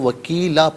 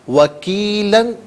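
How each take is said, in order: First: The word ends with a long a. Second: The word ends with an -an sound.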